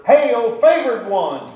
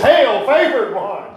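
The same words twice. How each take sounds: First: Slow, higher and louder hail; exclamation, not whispered. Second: Slow, higher, louder greeting; loud angel greeting. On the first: Angel greeting Mary in her room, called out slow and loud. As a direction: call it out boldly as the angel. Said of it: "there's an exclamation point, so he didn't whisper it". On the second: Angel surprising a girl in her boudoir, booming. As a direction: boom it out to startle her. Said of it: "wouldn't that shock you girls". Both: Shown as a demonstration.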